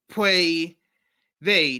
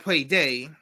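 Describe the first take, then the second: First: Said in the usual way. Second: "they" said as "day", with a hard d; "they" turned into "day"; mispronounced they. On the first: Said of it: "It's supposed to say". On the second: Shown as a demonstration. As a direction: harden the opening th of "they" into a d.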